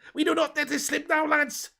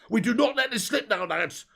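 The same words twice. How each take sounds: First: It is said in a Scouse accent. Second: It is said in a Cockney accent. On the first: The speaker calls it right. "Let's get Scouse" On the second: The speaker calls it wrong. "I don't know why I said it in a Cockney accent there"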